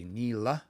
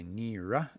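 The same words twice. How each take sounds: First: "nila" with a clear L, said slowly; L dialect. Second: "nira" with an R, said slowly; R dialect. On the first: Teacher comparing dialects, slow clear L. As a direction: say "nila" carefully with an L. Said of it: "they say nila". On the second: Teacher giving his own dialect form, slow R. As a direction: say "nira" carefully with an R. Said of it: "they say nira". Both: Shown as a demonstration.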